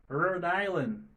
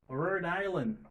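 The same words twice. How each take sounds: The two takes are said the same way.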